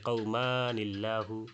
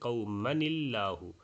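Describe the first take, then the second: First: The vowel before the n is drawn out long. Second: The vowel before the n is kept short. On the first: The speaker calls it wrong. "এক আলিফ লম্বা করে ... এইভাবে অনেকে তেলাওয়াত করে ফেলতে পারেন" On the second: The speaker calls it right. "মদ ছাড়া তেলাওয়াত করতে হবে"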